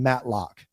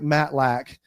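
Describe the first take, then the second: First: The second syllable sounds like 'lock'. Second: The second syllable sounds like 'lack'. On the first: The speaker calls it wrong. "a lot of people say my last name Matlock" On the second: The speaker calls it right. "with a last name like Matlack"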